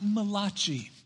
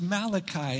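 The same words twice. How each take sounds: First: It is said in an Italian-sounding way. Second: It is said in a plain English way. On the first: The speaker calls it wrong. "It's not Malachi. He was not an Italian prophet" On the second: The speaker calls it right. "It is pronounced Malachi"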